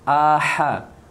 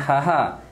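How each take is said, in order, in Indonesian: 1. Hamzah diikuti oleh h. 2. Kedua suku kata diawali dengan bunyi h. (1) "bezakan hamzah dan ha" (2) "Kalau ha-ha salah"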